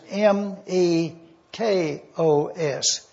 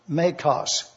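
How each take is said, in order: First: "M E K O S" spelled slowly, letter by letter; teacher spells the Greek word for the class, slowly, letter by letter. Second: "mekos" said as one word, quietly, after spelling it; teacher pronounces the Greek word he just spelled, plainly as one word; said as a whole word. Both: Shown as a demonstration. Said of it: "The next word".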